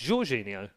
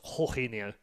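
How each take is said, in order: First: The J is said as a hard J. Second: The J is said the Spanish way. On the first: The name follows Portuguese pronunciation. The speaker calls it right. "and Portuguese the J is a hard J" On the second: Someone assumed the name follows Spanish pronunciation. The speaker calls it wrong. "I thought it was the Spanish version"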